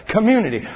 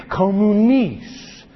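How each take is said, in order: First: Said in the usual way. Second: Communis drawn out slowly, as the Latin root of community; communis, the old Latin form, spoken carefully. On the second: Shown as a demonstration. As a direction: say communis slow and deliberate, like a word being taught. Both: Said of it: "Remember that word community".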